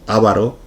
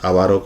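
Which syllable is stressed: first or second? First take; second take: first; second. First: The stress is on the first syllable. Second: The stress is on the second syllable. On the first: The speaker calls it wrong. "No es una palabra esdrújula, no decimos avaro" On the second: The speaker calls it right. "sino que decimos avaro"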